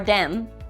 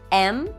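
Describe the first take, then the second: First: The word starts with a d sound. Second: The word starts with a vowel sound. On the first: "or dem" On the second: "can become em"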